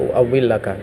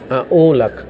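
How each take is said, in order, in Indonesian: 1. Ada w ganda dan empat suku kata. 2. Ada u panjang dan tidak ada w ganda. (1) "saya lebih membaca, menyukai membaca u'awwilaka" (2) "Bisa dibaca a'ulak ya"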